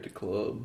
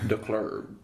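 First: Club is said plainly without an added R. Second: Club is said with an added R sound. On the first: The speaker calls it wrong. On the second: The speaker calls it right.

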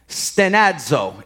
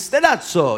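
First: It is said in a plain, unaffected way. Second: It is said with an Italian-style accent.

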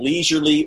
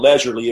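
First: It is said with a non-British pronunciation. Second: It is said with a British pronunciation.

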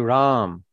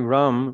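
First: The vowel in the name is long. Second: The vowel in the name is short. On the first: The speaker calls it right. "We say Ram, long R" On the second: The speaker calls it wrong. "We don't say Ram"

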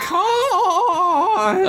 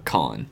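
First: The name is yelled loudly. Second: The name is said calmly, without yelling.

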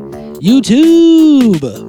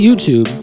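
First: It is said in an exaggerated imitated inflection. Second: It is said in a plain, ordinary voice. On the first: It copies another person's signature way of saying it. The speaker calls it wrong. "we're not allowed to say YouTube like that" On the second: It is just the ordinary word. The speaker calls it right. "We could say YouTube"

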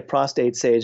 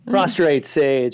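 First: The first word has no R after the T. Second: The first word has an R after the T. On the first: The speaker calls it wrong. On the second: The speaker calls it right.

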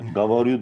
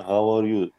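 First: It is said in standard Russian pronunciation. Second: It is said with a Ukrainian accent. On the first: This is the standard way to say it. "Gavaryu diyeceğine" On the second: A Ukrainian speaking Russian says it this way. "Gavaryu diyor mesela"

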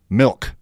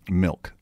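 First: The word is said with heavy, over-enunciated emphasis. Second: The word is said plainly without extra emphasis. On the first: The speaker calls it wrong. "Stressing the word" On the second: The speaker calls it right. "That was way better"

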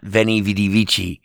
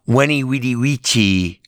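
First: Each word starts with a V sound. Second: Each word starts with a W sound. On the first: The speaker calls it wrong. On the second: The speaker calls it right. "correct Latin pronunciation"

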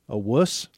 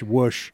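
First: The word ends with a plain s sound. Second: The word ends with an sh sound. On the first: The speaker calls it right. "like the word wuss" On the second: The speaker calls it wrong. "he always called him a whoosh, like a W-U-S-H"

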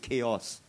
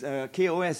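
First: It is said as one word, chaos. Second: It is spelled out as separate letters.

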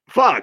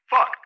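First: It is said in the speaker's normal voice. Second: It is said in a put-on character voice.

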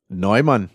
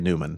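First: The name is said the German way. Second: The name is said the American way.

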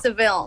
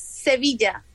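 First: The name has an English pronunciation. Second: The name has a Spanish pronunciation. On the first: "in English is Seville" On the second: "in Spanish is Sevilla"

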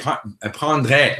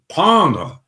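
First: The word is pronounced with Spanish-style vowels. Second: The word is pronounced with French-style vowels. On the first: The speaker calls it wrong. "they say prendre, like that" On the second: The speaker calls it right. "Instead of saying prendre"

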